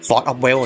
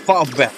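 First: It is said with a Thai-style accent. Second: It is said with an international English accent.

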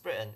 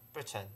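First: It is said in casual everyday British speech. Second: It is said in a formal, overly careful British pronunciation. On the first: This is how people in Britain actually speak. The speaker calls it right. "It's Britain" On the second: This is the pronunciation taught in class. The speaker calls it wrong. "instead of Britain"

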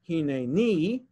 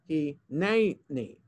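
First: The stress is not on the second syllable. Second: The stress is on the second syllable. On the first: The speaker calls it wrong. "we don't pronounce the word hineni or hineni" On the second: The speaker calls it right. "In the second syllable, it's hineni"

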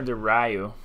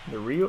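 First: Ryu is pronounced the English way. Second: Ryu is pronounced the Japanese way.

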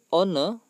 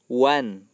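First: It is read as spelled, letter by letter. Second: It is pronounced the usual English way. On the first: "Tulisannya dalam bahasa Inggris adalah one" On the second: "tapi kalau dibaca adalah one"

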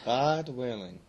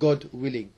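First: It is said in a put-on American accent. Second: It is said in the speaker's usual accent.

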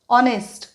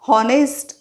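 First: The word starts directly with a vowel sound. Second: The word starts with an audible h sound. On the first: The speaker calls it right. "उच्चार काय असतो ह्या शब्दाचा? ऑनेस्ट" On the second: The speaker calls it wrong. "हचा उच्चार होतच नाही त्या ठिकाणी"

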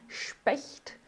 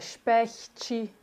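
First: The word ends in a crisp, released t. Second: An extra i vowel follows the final t. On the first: The speaker calls it right. "Mais uma vez, specht" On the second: The speaker calls it wrong. "Muito brasileiro fala specht"

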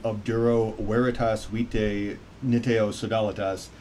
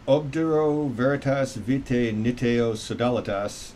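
First: The V letters are pronounced as a W sound. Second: The V letters are pronounced as a V sound.

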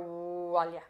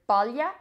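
First: The word starts with a continuous w-like sound. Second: The word starts with a short stop sound. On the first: "the W sound in uber walia is continuous" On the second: "b for balia is a one-soft plosive sound"

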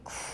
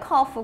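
First: It is said like coo, ending in oo. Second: It is said like cuff, ending in f. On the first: The speaker calls it wrong. "계속 O-U-G-H 발음을 틀리는 거예요" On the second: The speaker calls it right. "이건 커프야"

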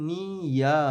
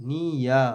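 The two takes are said the same way.

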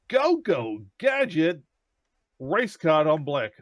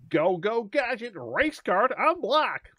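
First: It is said in a normal voice. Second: It is said in an Inspector Gadget impression.

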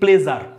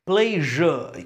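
First: The middle consonant is a hard j sound. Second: The middle consonant is a soft zh sound. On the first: This is how Bengali speakers usually say it. The speaker calls it wrong. "আমরা বাংলায় কি বলি?" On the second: This is the standard British English way. The speaker calls it right. "ইংলিশে আরপিতে এটা প্লেজার বলা হয় না, এটাকে প্লেজার"

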